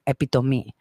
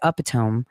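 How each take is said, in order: First: The word ends with an 'ee' sound. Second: The word ends with a 'tome' sound. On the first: The speaker calls it right. "that is the correct way of stating it too" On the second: The speaker calls it wrong. "it's more not as powerful as epitome"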